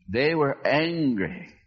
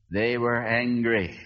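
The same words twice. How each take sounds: First: Were leaned on, slow; slow, hit the word were; stress on were. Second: Said in the usual way. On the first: Shown as a demonstration.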